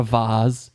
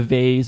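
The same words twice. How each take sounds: First: Vase with long ah vowel, vahz; British vase. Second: Vase with American ay vowel, rhymes with face. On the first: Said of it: "I always wanna have, like, a British accent". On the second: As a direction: say vase as vayss, American style. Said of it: "or the vase". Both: Shown as a demonstration.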